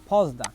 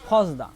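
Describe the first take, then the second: No difference in how they are said.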